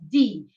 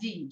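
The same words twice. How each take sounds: First: The final vowel is clearly and fully pronounced. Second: The final vowel is short and swallowed. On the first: "in Italian, it's D, and you have to make it... sound well" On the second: "In English, you just swallow the I"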